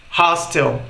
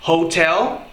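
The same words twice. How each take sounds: First: "hostel" with stress on HOS; English hostel. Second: "hotel" with stress on TEL; English hotel. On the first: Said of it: "A acentuação é completamente diferente". ("hostel" com tônica em HOS) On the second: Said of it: "a entonação é completamente diferente". ("hotel" com tônica em TEL) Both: Shown as a demonstration.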